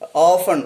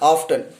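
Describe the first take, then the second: First: The t sound is silent. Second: The t sound is clearly pronounced. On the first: The speaker calls it right. "T is silent there" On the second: The speaker calls it wrong. "we mispronounce this word as uh, often"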